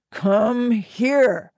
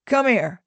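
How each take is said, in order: First: Stretched-out, higher-pitched summons; slow, insistent call; coaxing order. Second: Quick, higher-pitched call; short casual order; brisk summons. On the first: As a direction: draw both words out insistently. Otto summons her more insistently. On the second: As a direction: call her over briskly. Otto summons the woman. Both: A narrator's reading.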